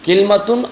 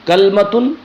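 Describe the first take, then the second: First: It starts 'kil' with no vowel after the l. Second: It starts 'kal' with no vowel after the l.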